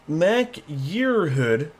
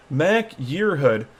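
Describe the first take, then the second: First: Mac Yearhood drawn out slowly in a stray accent, rising at the end. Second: Said in the usual way. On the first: Real, not acted. Vlogger reading a suspect's name, in a stray accent. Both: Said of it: "I don't know why I had an accent to that".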